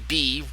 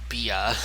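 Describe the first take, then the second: First: The name is said with one syllable. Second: The name is said with two syllables. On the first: The speaker calls it right. "It's just simply B" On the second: The speaker calls it wrong. "as I initially announced her or pronounced her as Bia"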